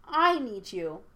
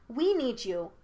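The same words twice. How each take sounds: First: Plead, putting all the weight on "I"; stress on I. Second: WE lifted high in a plea; plead, putting the weight on "We"; stress on WE. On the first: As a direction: punch "I" in a personal plea. Aang pleads, now for himself. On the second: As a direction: lean on "We" with rising pitch, then fall. Aang pleads, first for both. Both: A narrator's reading.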